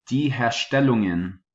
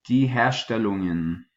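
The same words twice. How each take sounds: The two takes are said the same way.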